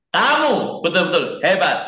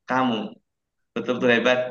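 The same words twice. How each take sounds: First: It is said in a loud voice. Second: It is said in a soft voice. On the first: "dari nada yang paling keras" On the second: "Yang paling pelan"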